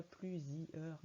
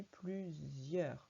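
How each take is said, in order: First: Plusieurs said the wrong way, as a faulty reading; wrong model of plusieurs; wrong pronunciation. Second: Plusieurs said slowly and correctly, "plu-zieur"; correct pronunciation. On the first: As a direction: read plusieurs like a child getting it wrong. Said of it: "on dit pas". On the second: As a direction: model plusieurs slowly, the right way. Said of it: "On dit plusieurs". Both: Shown as a demonstration.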